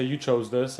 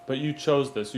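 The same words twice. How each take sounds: First: \"You chose this\" said as a reproach, rising at the end; negative. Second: \"you chose this\" said as a proud affirmation, falling at the end; positive. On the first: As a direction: make \"You chose this\" sound like a complaint. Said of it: "and it sounds negative". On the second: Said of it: "Be proud of yourself". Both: Shown as a demonstration.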